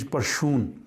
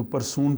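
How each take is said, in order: First: परशून with rs as sh; परशून, sh in the middle; Swedish rs sound. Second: परसून with a plain s; परसून, r then s; English reading. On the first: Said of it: "लेकिन Swedish परशून". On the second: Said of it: "अंग्रेज़ी में पढ़ें तो परसून पढ़ेंगे". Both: Shown as a demonstration.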